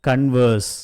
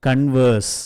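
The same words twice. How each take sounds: The two takes are said the same way.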